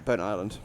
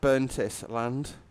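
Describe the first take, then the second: First: It is split as Burnt plus Island. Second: It is split as Burntis plus land. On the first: The speaker calls it right. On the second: The speaker calls it wrong.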